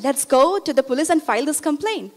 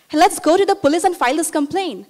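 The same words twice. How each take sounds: First: Steadier, insistent retold appeal; repeated urging. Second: Quick, higher-pitched retold appeal; urgent urging. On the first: Student repeating her appeal to the neighbor, insistent. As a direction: press the same point with measured insistence. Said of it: "I said it again". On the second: Student urging beaten neighbor to go to police, urgent. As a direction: rush to talk them into acting. Urges neighbor to report husband.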